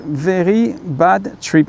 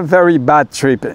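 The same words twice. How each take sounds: First: English title in a slow French accent. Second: Said in the usual way. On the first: Shown as a demonstration. Vlogger clarifying the film title for viewers, French accent. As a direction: say it slowly, the French way. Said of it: "avec l'accent français".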